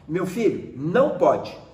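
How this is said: It is said in a firm, stern tone. The parent is giving the child a warning. "Chamar atenção é você mudar o tom de voz"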